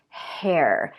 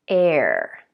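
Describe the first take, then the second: First: The word begins with an audible H sound. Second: The word begins with a vowel, no H sound. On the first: The speaker calls it right. "spelled with an H, sounds like an H" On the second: The speaker calls it wrong. "might drop that H and say"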